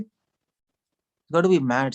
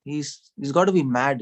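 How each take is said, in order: First: Each word stretched out slowly; slow, drawn-out diagnosis. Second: Said in the usual way. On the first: Shown as a demonstration. Preacher to the audience, drawn-out slow verdict. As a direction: spell out the verdict slowly for emphasis.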